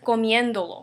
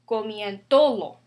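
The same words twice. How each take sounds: First: The stress is on the third-to-last syllable. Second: The stress is on the second-to-last syllable. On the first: The speaker calls it right. "we put accent over here" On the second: The speaker calls it wrong. "without accent mark would be comiéndolo"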